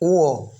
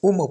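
First: No m sound is heard in the middle. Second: An m sound is heard in the middle. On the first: The speaker calls it right. "সঠিক উচ্চারণ হচ্ছে উও।" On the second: The speaker calls it wrong. "কিন্তু আমরা এটাকে উমো পড়ি।"

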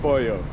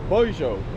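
First: It is said with the Mexican pronunciation. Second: It is said with the Argentine pronunciation. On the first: "Instead of pollo" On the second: "Here in Argentina, the pronunciation is very different to in Mexico or other places. So it's pollo"

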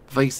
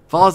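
First: The word is said with an American pronunciation. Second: The word is said with a British pronunciation. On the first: "Vase in America" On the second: "Vase in England"

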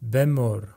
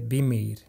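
First: The vowels sound like 'e' then 'u'. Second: The vowels sound like 'i' then 'i'.

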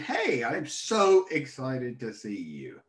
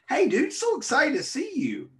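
First: The excitement sounds forced and insincere. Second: The excitement sounds natural and sincere.

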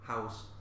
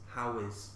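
First: One contracted syllable, how's. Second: Two separate full words, how and is. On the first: The speaker calls it right. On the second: The speaker calls it wrong. "Escucho how is. How is. Pero no"

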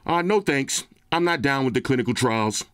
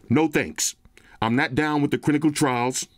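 First: It is said in a put-on, unusual voice. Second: It is said in his regular speaking voice.

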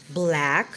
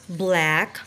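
The two takes are said the same way.

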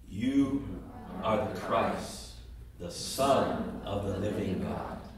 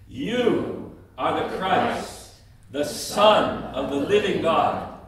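First: It is said at the quietest volume. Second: It is said at a medium, louder volume. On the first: "each time louder than the other" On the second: "each time louder than the other"

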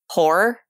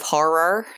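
First: The middle R sounds run together as one. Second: The middle R sounds are pronounced separately. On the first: This is how many Americans say it. "we have a tendency to just say horror" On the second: This is the fuller pronunciation of the word. "instead of horror"

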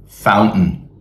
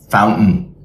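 No difference in how they are said.

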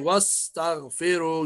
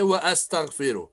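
First: 'Wa' links straight into 'staghfiru' without a stop. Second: A glottal stop is pronounced after 'wa'. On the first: The speaker calls it right. "Say wa-astaghfiru. You have to hide. Alif is silent" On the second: The speaker calls it wrong. "don't say wa-astaghfiru"

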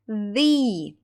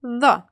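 First: The vowel is a full vowel, not schwa. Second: The vowel is a weak schwa sound. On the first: It comes before a word starting with a vowel. "Якщо ж іменники починаються з голосних звуків, ми читаємо цей артикль як the" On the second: It comes before a word starting with a consonant. "Перший варіант – «the», знову зі звуком шва"

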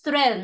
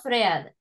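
First: The vowel is short. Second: The vowel is long. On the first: The speaker calls it right. "it's thread" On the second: The speaker calls it wrong. "not thread"

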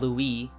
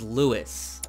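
First: The name is said in a French way. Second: The name is said in an English way. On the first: The speaker calls it wrong. "not Louis. He's not from France" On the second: The speaker calls it right. "His name is Louis"

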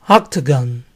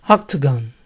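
Both takes have the same delivery.

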